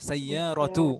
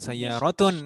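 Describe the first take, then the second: First: The word ends without a final n sound. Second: The word ends with an added n sound. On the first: The speaker calls it right. "سيارة bukan" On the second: The speaker calls it wrong. "sebagai mudhaf itu tidak boleh tanwin"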